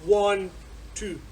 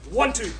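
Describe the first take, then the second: First: There is a gap between the two words. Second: The two words run together without a gap.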